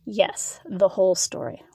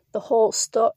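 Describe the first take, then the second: First: Firm confirmation with a falling end; mild, settled reproof; admonishing. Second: "The whole sto-" as a question, broken off mid-word; puzzled echo of "The whole sto-", abruptly interrupted; questioning, cut off. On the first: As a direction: finish the phrase firmly, lightly scolding. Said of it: "London admonished". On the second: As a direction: break off "sto-" before the word is finished. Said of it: "Liam questioned before getting cut off". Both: A narrator's reading.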